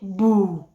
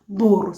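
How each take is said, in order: First: The word ends in a vowel without R. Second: The word ends with an audible R sound. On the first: This is how the speaker's own variety says it. "we omit the R" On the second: This is how Tanzanian and Kenyan Luo say it. "they don't omit the R"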